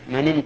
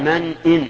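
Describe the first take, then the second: First: The glottal stop is dropped, words run together. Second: The glottal stop is clearly pronounced, words kept apart. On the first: The speaker calls it wrong. "خلافا لما يصدر من بعض الناس ... هذا خطأ، ... جعل الهمزة همزة وصل" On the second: The speaker calls it right. "هنا يجب الإظهار لأن همزة همزة قطع، فيقال من إن"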